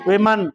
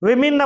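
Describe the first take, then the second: First: It is said as wimen, with i then e. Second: It is said as wimin, with two i vowels. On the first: The speaker calls it wrong. "ஆனா நம்ம என்ன செய்யறோம்?" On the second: The speaker calls it right. "விமின் அப்படின்றதா சரி"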